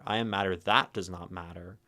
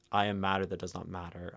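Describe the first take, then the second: First: Said in the usual way. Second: Fast, run together, no pause at the parentheses; plowing straight through. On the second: Shown as a demonstration. Teacher showing her stream how to plow through the line, fast and run together. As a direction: rush the line in one breath, ignoring the parentheses. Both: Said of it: "to plow through and ignore the parentheses".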